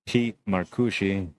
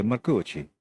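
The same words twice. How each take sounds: First: Said in the usual way. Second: Mock Italian accent. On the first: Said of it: "So you gotta say Marcucci". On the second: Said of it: "I'm not trying to make fun of Italian accents".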